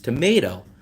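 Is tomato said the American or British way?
American. Tomato is said with an American pronunciation. The speaker calls it right. "it's tomato"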